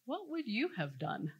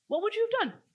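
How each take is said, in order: First: Said in the usual way. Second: Much higher, teasing question; playful challenge. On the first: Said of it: "No, seriously". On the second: Real, not acted. Coach challenging the audience to act out the scene, high and playful. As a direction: throw it at them like a dare. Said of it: "play out that scene right now".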